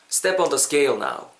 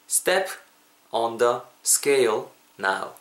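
First: It is said at natural, normal speed. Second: It is said slowly and carefully.

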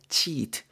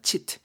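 First: The vowel is said long and drawn out. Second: The vowel is said short and clipped. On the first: The speaker calls it right. "이렇게 길게 발음을 주셔야 됩니다" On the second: The speaker calls it wrong. "이렇게 짧게 하는 게 아니고"

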